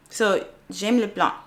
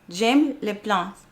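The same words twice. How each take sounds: First: Slow, careful French "j'aime les plantes". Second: "J'aime les plantes" said very slowly, syllable by syllable; slow French repeat. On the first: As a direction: sound out "j'aime les plantes" slowly in a learner's French accent. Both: Shown as a demonstration. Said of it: "say it before I click it".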